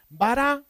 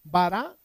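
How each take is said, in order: First: Bara said high and loud; emphatic key word. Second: Bara said louder, stress on the first syllable; clear model word. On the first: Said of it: "Repites conmigo". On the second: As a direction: call out Bara so the class can echo it. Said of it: "Repite conmigo". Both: Shown as a demonstration.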